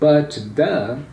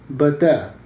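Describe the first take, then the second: First: The final T of 'but' is pronounced. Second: The final T of 'but' is dropped. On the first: "instead of saying but the" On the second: "I can say but, but, but the"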